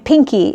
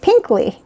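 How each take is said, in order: First: The word is said without an L sound. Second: The word is said with an L sound. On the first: The speaker calls it wrong. "I was saying it wrong last time. I was saying Pinky" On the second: The speaker calls it right. "it's P I N K L Y, Pinkly"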